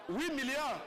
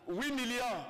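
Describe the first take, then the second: No difference in how they are said.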